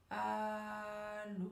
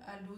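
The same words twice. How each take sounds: First: ALLÔ very slow, both vowels held on a level note; stretched syllables. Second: Said in the usual way. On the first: Shown as a demonstration. Coach practises the famous telephone word, drawn-out ALLÔ. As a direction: hold the A long, then a long steady LÔ. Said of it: "allonger le mot, allonger la syllabe". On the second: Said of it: "on va faire sur le allô".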